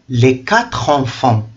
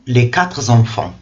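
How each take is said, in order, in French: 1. Quatre se joint à enfants sans son z. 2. Un son z relie quatre à enfants. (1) "On écrit quatre sans S à la fin. Et donc on doit prononcer" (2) "et non"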